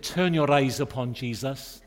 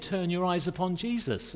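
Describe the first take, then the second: First: A hint of a Welsh accent, lilting the line; light Welsh accent. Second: Said in the usual way. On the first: Preacher mimics a Welsh man praying in a prayer meeting, light Welsh accent. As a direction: lightly imitate a Welsh brother praying aloud. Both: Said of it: "I hope I can do the accent".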